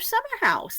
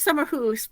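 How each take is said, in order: First: The second word rhymes with mouse. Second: The second word rhymes with loose. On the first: This is the commonly used pronunciation. "I thought I'd go for the common pronunciation tonight" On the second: This is the correct pronunciation. "when I say it correctly"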